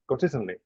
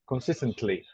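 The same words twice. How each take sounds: First: The syllables are relaxed and run together. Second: Every syllable is pronounced fully and strongly. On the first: "you will say it naturally" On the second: "use the strong pronunciation"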